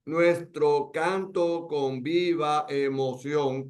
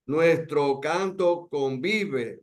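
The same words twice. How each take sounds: First: Slow, each syllable separated; grammatical reading, syllables apart. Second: "convive" run together as one word, very slow; vowels joined. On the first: Teacher splitting the verse into grammatical syllables, slow. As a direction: spell the verse out slowly by syllables. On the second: Teacher showing the vowels merge into "convive", slow. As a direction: glide "con viva" into "convive", slowly. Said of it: "no dice, nuestro canto convive emoción". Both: Shown as a demonstration.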